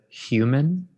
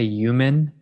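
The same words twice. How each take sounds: First: The word starts with a clear h sound. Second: The word starts without an h sound.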